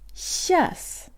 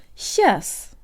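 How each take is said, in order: First: The word is shortened to one syllable. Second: The same.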